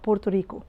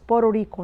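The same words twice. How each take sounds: First: The T in Puerto is a clear, hard T. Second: The T in Puerto sounds like a quick R. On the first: The speaker calls it wrong. "not Puerto Rico" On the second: The speaker calls it right. "it's flap T, it's pronounced like R. So it's Puerto Rico"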